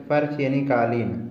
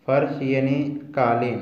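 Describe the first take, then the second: No difference in how they are said.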